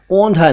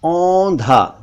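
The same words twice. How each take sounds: First: "औंधा" mispronounced with closed o, "ondha"; wrong o vowel. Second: "औंधा" opening with an open au; correct au vowel. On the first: Teacher shows learners the mistake, wrong o sound. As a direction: say "औंधा" as "ohn-dha". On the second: Teacher models औंधा for learners, correct au sound. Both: Shown as a demonstration. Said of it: "औंधा नहीं".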